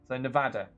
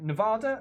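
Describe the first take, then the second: First: The stressed vowel is a short 'a' sound. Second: The stressed vowel is not a short 'a'. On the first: The speaker calls it right. "proper pronunciation is a short A. So Nevada. Like that" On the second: The speaker calls it wrong. "I imagine I'm saying it wrong"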